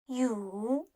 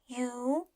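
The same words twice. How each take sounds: First: The pitch dips low and then rises. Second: The pitch rises from middle to high.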